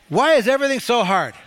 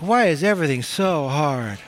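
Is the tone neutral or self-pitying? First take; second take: neutral; self-pitying. First: It is said in a plain, neutral tone. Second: It is said in a whiny, self-pitying tone.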